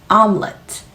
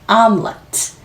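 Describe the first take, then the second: Both takes have the same delivery.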